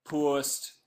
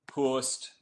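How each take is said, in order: First: "Post" said the Geordie way, like "purst"; lightly put-on Geordie vowel on "Post"; mock Geordie "Post" as he posts the tweet; Geordie accent. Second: Said in the usual way. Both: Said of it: "apologies for the Geordie accent".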